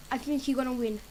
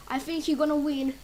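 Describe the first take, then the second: No difference in how they are said.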